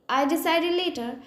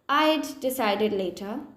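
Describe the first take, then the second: First: The two D sounds merge into one. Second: The D sound is pronounced twice, separately. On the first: "I will just make it one sound" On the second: "I don't need to pronounce the D sound again and again"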